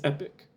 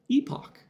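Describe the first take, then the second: First: The word sounds just like 'epic'. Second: The word sounds like 'ee-pock', not 'epic'. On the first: This is the dictionary's primary pronunciation. "the primary pronunciation is epic" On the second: This is the common alternate pronunciation. "an alternate, U S pronunciation and British usually"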